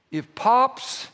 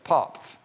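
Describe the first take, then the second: First: Said in the usual way. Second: Popf with a lisped th at the end instead of s; lisped grandpa name. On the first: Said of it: "got a lisp with that". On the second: Retold or imitated. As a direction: say Popf like a toddler with a lisp, final th. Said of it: "they got, got a lisp with that".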